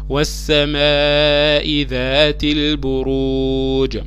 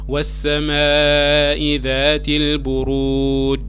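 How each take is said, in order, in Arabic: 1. الـ j الأخير يتنطق بقلقلة خفيفة، فيه ارتداد قصير. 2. الـ j الأخير يتقفل مستوي من غير قلقلة. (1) "ده شكل القلقلة" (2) "لو قلناها من غير تجويد"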